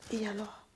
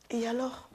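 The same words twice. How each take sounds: First: Et alors? soufflé sans voix, tout bas; chuchoté. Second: Said in the usual way. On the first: Shown as a demonstration. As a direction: chuchote le « Et alors? » comme un secret. Répète et alors pour insister. (« Et alors? » murmuré sans voix)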